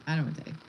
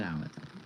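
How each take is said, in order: First: Said in the usual way. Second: A low, hushed, comic grumble; mock deep voice. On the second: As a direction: drop way lower and much softer. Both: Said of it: "If y'all didn't catch that".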